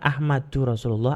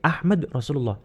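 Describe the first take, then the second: First: The first word ends with an added 'u' vowel. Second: The first word ends on a bare 'd' sound. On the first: The speaker calls it wrong. "bukan Ahmadu Rasulullah" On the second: The speaker calls it right. "tapi Ahmad Rasulullah"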